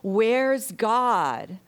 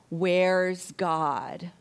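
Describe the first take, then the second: First: It is bellowed very loudly. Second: It is said at a normal volume.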